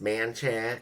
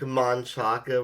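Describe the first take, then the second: First: The name is said without the final vowel. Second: The name is said with a final vowel sound. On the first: This is how locals actually say it. "is pronounced Manchac" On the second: This is how the name is written. "Just like Manchaca Road"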